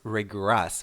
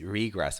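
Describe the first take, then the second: First: The stress is on the second syllable. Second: The stress is on the first syllable. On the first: It is the verb, meaning to go back. "let's talk about the verb first" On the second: It is the noun. "The noun is regress with stress on the first part"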